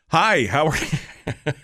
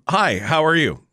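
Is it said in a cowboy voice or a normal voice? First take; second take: cowboy voice; normal voice. First: It is said in a put-on cowboy voice. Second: It is said in his normal voice.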